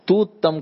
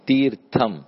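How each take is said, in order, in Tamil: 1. சொல் குறைந்து சொல்லப்படுகிறது, 'r' ஒலி விடப்படுகிறது. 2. சொல் முழுமையாகச் சொல்லப்படுகிறது, 'r' ஒலியுடன். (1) "தூத்தம்னு ஒன்று இல்லை"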